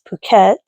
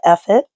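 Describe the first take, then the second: First: The name is said with its Thai pronunciation. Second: The name is said as an English pun. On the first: "The Thai pronunciation of it is" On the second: "it's a play on words, so it's everybody calls it"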